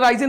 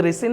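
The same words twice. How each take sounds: First: റൈസിൻ said with "rai", as rai-sin like rice; memory-aid pronunciation. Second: റിസിൻ said with a short "ri", as ri-sin; correct pronunciation. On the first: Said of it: "നിങ്ങൾ റൈസിൻ എന്ന് പഠിച്ചാൽ മതി". (റൈസിൻ എന്ന് "റൈ" നീട്ടി പറയുക) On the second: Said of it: "ഇത് റിസിൻ എന്നാണ് pronunciation". (റിസിൻ എന്ന് ശരിയായ ഉച്ചാരണത്തിൽ) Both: Shown as a demonstration.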